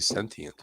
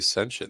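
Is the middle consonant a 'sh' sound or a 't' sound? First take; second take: t sound; sh sound. First: The middle consonant is a clear 't' sound. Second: The middle consonant is a 'sh' sound. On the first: This is the more common pronunciation. "sentient makes way more sense because you're pronouncing every every vowel in there" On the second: This is the less common pronunciation. "not a lot of people say sentient"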